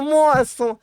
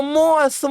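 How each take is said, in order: First: "moço" agudo, caindo no fim; chamado agudo. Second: Chamado agudo. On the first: ("moço" agudo e caindo) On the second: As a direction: chame de novo, bem agudo. ("Moço" agudo e caindo) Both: Retold or imitated.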